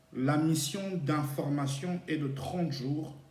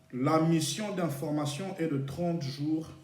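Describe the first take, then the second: The two takes are said the same way.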